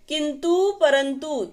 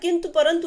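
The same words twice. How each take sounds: First: The final vowels are long. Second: The final vowels are short. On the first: The speaker calls it wrong. "लिखते ऊ है लेकिन बोलते बड़ा ऊ है" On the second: The speaker calls it right. "शुद्ध उच्चारण"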